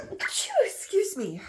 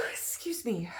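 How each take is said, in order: First: Slow, sneezing out the words. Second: Said in the usual way. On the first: Real, not acted. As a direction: excuse me through a sneeze. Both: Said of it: "oh, I think I'm gonna sneeze".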